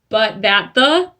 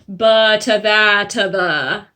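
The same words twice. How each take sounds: First: The words run together without added vowels. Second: Small schwa vowels are added between the words. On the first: The speaker calls it wrong. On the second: The speaker calls it right.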